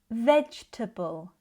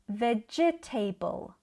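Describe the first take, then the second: First: The ending is short and reduced, not 'table'. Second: The ending sounds like the full word 'table'. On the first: The speaker calls it right. "In British English, we would say" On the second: The speaker calls it wrong. "like they end in the word table"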